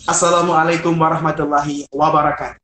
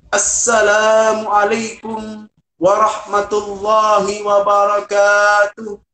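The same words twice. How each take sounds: First: It is said in a plain, simple style. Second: It is said in an oratorical, preaching style.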